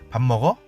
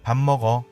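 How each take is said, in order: First: The voice rises at the end. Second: The voice stays level or falls at the end. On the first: It asks a question about eating. "말꼬리를 조금 올려볼게요" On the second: It states a fact about eating. "사실을 진술하는 내용처럼 들리죠"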